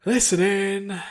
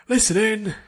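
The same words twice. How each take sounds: First: Loud, high called order; instructor's command. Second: Loud, high barked order; instructor's command. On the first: Instructor calling the next round, loud command. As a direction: summon the class for the next round. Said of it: "now her turn to attack". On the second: Instructor calling the training class to attention, loud command. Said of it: "the instructor's command". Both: Acted.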